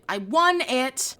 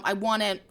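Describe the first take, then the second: First: "won" drawn out slowly for emphasis; emphatic repeat. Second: Said in the usual way. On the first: Real, not acted. Telling listeners about finally winning the game show, emphatic. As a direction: savour the win, stretching out WON.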